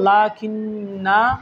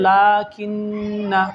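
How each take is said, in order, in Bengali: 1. শেষ স্বরটি টেনে দীর্ঘ করে পড়া হয়। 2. শেষ স্বরটি হ্রস্ব, পরের শব্দের সাথে মিলিয়ে পড়া হয়। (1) "ওয়াকফ করে পড়লে হবে" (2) "মিলিয়ে পড়লে হবে"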